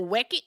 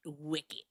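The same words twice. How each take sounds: First: "wicked" tried as "wecked", rising; questioned Boston pronunciation. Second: "wicked" with a short I, settled; Boston pronunciation. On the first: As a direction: test "wicked" with an E sound, louder. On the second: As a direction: answer softly with "wicked" as "wick-id". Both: Shown as a demonstration. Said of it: "here's my Boston accent".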